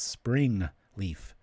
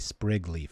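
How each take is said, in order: First: The first word is said with an n sound. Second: The first word is said without an n sound. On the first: The speaker calls it right. "It's spring leaf" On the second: The speaker calls it wrong. "I always say that wrong. I say sprig leaf"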